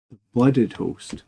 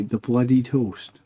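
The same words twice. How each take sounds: First: "blooded" said in two syllables, blud-id, slowly; slow self-correction to "The blooded host"; corrected to blooded. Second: "bloodied" said with three syllables, blood-ee-d, slowly; slow first reading "the bloodied host"; misread as bloodied. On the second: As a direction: read it as "bloodied", slowly, by mistake. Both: Real, not acted.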